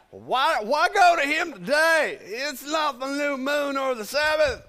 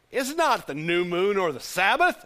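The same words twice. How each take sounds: First: Put-on high, loud, grumbling old man; cranky old husband, pitched way up; older husband. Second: Said in the usual way. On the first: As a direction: put on an older guy's raised, querulous voice. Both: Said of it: "of course, he's an older guy".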